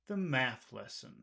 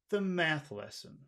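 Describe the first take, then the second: No difference in how they are said.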